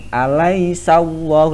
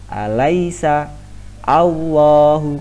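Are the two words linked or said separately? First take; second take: linked; separate. First: The two words are linked into one. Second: The two words are said separately.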